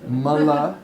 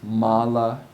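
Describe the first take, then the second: First: The first vowel is a short uh sound. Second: The first vowel is a long ah sound. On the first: It means waste. "that short uh" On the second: It means garland or rosary. "long ah"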